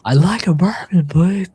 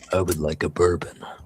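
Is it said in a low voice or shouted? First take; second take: shouted; low. First: It is shouted loudly over noise. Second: It is said in a low, quiet voice.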